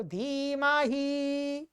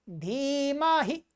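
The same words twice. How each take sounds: First: धीमहि with the final 'hee' held long; mistaken long ending. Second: Slow धीमहि ending on a short 'hi'; short final I. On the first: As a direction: drag out the last vowel of धीमहि. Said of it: "गलत उच्चारण करते हैं". (धीमहि के अंत में लंबी ई) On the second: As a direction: hold 'dhee-maa', then clip the last vowel of धीमहि. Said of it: "ये छोटी ई है". (धीमहि के अंत में छोटी इ) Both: Shown as a demonstration.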